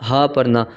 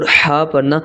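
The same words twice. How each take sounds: First: ہا with a light, simple h; easy unforced h in ہا; plain ہا. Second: ہا with a strong pharyngeal h; effortful ح. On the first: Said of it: "کیونکہ سادہ". (سادہ ہا، حلق کے نیچے سے) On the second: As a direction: force ہا out from mid-throat. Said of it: "ہا پڑھنے کے لیے آپ کو کوشش کرنی". (ہا کوشش سے، حلق کے درمیان سے) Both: Shown as a demonstration.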